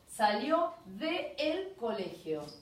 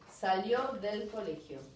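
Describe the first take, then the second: First: There is a break between the two vowels. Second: It flows smoothly without any break.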